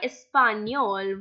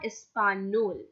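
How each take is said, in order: First: The middle consonant is a palatal 'ny' sound. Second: The middle consonant is a plain 'n' sound. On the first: The speaker calls it right. "Now why español?" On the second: The speaker calls it wrong. "Why not español?"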